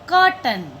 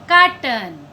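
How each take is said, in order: First: The first vowel is a rounded 'aw' sound. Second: The first vowel is an open 'aa' sound. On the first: The speaker calls it right. "आवाज क्या आ रही है?" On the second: The speaker calls it wrong. "यह गलत है।"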